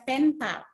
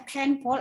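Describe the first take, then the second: First: "pen pal" with an open "a" in the second word; pronunciation example. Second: "pen pal" with the second word said like "pol"; pronunciation example. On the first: Teacher contrasting two readings of a word, alternative pronunciation. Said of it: "atau kalian baca pen pal". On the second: Teacher contrasting two readings of a word, demonstrated mispronunciation. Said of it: "ketepatan pengucapan kata. Contoh tadi misalnya". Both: Shown as a demonstration.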